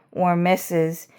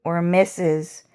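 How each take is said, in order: Both takes have the same delivery.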